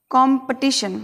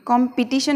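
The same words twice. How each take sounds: First: कॉम्पिटिशन with schwa after P; weakened second vowel in कॉम्पिटिशन; corrected pronunciation. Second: कॉम्पिटिशन with clear I after P; full second vowel in कॉम्पिटिशन; wrong pronunciation. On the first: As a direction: say कॉम्पिटिशन as "kom-puh-ti-shun". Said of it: "किस प्रकार से बोलेंगे". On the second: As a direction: say कॉम्पिटिशन as "kom-pi-ti-shun". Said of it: "कॉम्पिटिशन नहीं बोलेंगे हम". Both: Shown as a demonstration.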